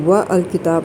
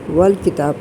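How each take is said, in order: First: The 'a' of 'al' is pronounced separately. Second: The 'a' is dropped, joining 'wa' to 'l'. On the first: The speaker calls it wrong. "व अल किताब नहीं कहते" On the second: The speaker calls it right. "बल्कि वल किताब कहते हैं"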